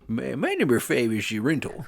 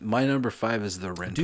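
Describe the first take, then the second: First: It is said in a put-on character voice. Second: It is said in a normal speaking voice. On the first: "like Adam Sandler and the comic book guy from The Simpsons" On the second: "I was gonna do a whole voice"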